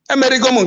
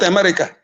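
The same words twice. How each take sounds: First: It is said with an Igbo-style pronunciation. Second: It is said with an English-style pronunciation. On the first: The speaker calls it right. "pay attention to the pronunciation" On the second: The speaker calls it wrong. "not America"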